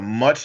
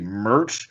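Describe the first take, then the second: First: It is said plainly with no added R. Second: It is said with an extra R sound. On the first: "instead of much" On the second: "they'll say merch"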